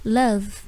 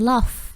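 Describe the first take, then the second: First: "love" as slow luv, voiced v; correct pronunciation. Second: "love" said as lof, rounded vowel; wrong pronunciation. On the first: Teacher giving the right word for cinta, slow model pronunciation. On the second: Teacher showing what not to say, mispronounced demo. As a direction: say "love" with o and a hissed f. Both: Shown as a demonstration. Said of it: "bukan love, tapi love".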